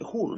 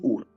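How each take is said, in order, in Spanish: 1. El nombre empieza con un sonido h fuerte y áspero. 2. El nombre empieza directamente con un sonido vocal. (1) "se pronuncia como una K fuerte, o una J fuerte" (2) "Es Ur para aquellos que lo lean en español"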